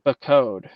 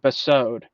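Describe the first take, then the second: First: The second consonant is a hard k sound. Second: The second consonant is an s sound. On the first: The speaker calls it wrong. "I never pronounce that as a ka" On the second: The speaker calls it right. "It's supposed to be a sa, not a ka"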